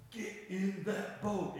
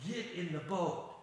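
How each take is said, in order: First: Slow, each word of "Get in that boat" weighted; emphasis on get in that boat. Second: Said in the usual way. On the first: Retold or imitated. Jesus ordering disciples, slow firm stress on "Get in that boat". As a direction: press every word of "Get in that boat" firmly. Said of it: "the emphasis here is".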